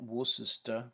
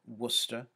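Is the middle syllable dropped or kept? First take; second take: kept; dropped. First: The middle syllable is kept in full. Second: The middle syllable is dropped entirely. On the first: The speaker calls it wrong. "is not Worcester" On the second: The speaker calls it right. "but Worcester"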